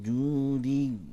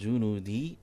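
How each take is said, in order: First: The word has no n sound inside. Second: The word has an added n sound inside. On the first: The speaker calls it right. "tapi wastawat 'alal judi" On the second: The speaker calls it wrong. "bukan junudi"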